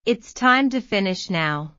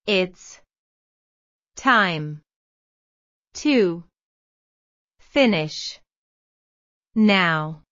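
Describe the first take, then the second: First: Said in the usual way. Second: Slow dictation, a pause after every word; word by word, each word on its own. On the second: Shown as a demonstration. Teacher to students, modelling Carry on with the exercise word by word. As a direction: spell the phrase out one word at a time. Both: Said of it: "teacher models the phrase".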